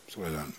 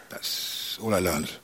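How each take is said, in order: First: Whispered repeat of the line. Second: Said in the usual way. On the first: Real, not acted. Quietly repeating his lesson to the audience, in a whisper. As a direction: let it fall to a whisper. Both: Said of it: "repeated, second whispered".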